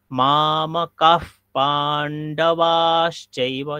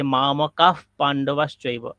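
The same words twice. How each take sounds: First: মামকাঃ পাণ্ডবাশ্চৈব with every long vowel stretched; long vowels drawn out. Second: Said in the usual way. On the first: Shown as a demonstration. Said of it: "আমি সেখানে দীর্ঘ বলছি". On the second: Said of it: "আমি একটা আফ একটা উচ্চারণ করছি".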